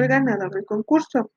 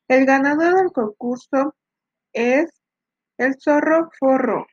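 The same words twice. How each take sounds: First: Said in the usual way. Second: Lightly raised announcer voice; booming prize announcer. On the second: Acted. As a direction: call out the winner like an emcee. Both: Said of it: "anunció el ganador del concurso".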